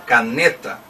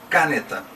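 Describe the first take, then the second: First: The stress is on the second syllable. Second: The stress is on the first syllable. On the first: The speaker calls it right. "Então a sílaba tônica é a penúltima, o ne" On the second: The speaker calls it wrong. "não é caneta. Então não pode ser a antepenúltima sílaba"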